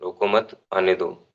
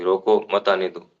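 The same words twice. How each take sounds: First: "रोको मत" as one unit, pause, "आने दो"; pause after मत. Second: "रोको", break, then "मत आने दो" together; pause after रोको. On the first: Teacher explaining comma placement, pause after मत. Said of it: "रोको मत के बाद हमने कोमा लगा दिया". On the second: Teacher reversing the meaning, pause after रोको. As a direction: put the comma right after रोको, joining मत to आने दो. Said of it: "रोको के बाद वो कोमा लगा दे". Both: Shown as a demonstration.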